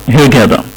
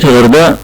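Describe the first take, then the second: First: "هيرجادا" with a hard g replacing the Arabic غ; English pronunciation. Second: Said in the usual way. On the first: Shown as a demonstration. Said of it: "مش موجود من ضمن الأصوات الإنجليزية صوت الغين". (نطق "هيرجادا" على الطريقة الإنجليزية بجيم مصرية بدل الغين) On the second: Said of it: "وبالتالي بننطق مدينة الغردقة".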